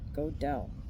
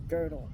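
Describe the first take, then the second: First: The first vowel sounds like 'oh'. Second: The first vowel sounds like 'er'. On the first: The speaker calls it wrong. "not Godel" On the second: The speaker calls it right. "pronounce it correctly as Girdle"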